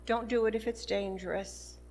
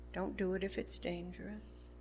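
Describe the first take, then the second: First: Said in the usual way. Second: "Don't do it if it's dangerous." repeated much softer, with a rise on "do"; soft repeated warning. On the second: Shown as a demonstration. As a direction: drop the voice right down and repeat it as a gentle, earnest caution. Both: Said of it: "Be careful".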